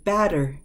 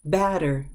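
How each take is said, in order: First: The middle consonant is a quick, soft D. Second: The middle consonant is a quick, soft D.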